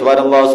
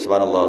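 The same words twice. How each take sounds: First: It is said loudly. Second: It is said quietly.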